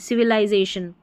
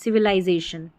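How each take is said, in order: Both takes have the same delivery.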